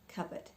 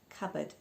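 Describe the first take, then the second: First: The P sound is left out. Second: The same.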